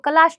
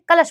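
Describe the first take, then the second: First: The second syllable has a long vowel. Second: The second syllable has a short vowel. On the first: The speaker calls it wrong. "कलाश नहीं" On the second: The speaker calls it right. "कलश बोलेंगे हम इसको"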